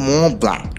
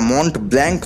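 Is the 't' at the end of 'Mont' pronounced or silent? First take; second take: silent; pronounced. First: The first word ends without any 'nt' sound. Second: The first word ends with a clear 'nt' sound. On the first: The speaker calls it right. "ঠিকভাবে উচ্চারণ করতে শিখুন। ওটা হলো ম ব্ল্যাঙ্ক" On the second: The speaker calls it wrong. "ওটা মন্ট ব্ল্যাঙ্ক নয়"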